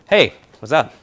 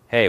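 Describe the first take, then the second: First: It is said with high, lively energy. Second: It is said with low, flat energy.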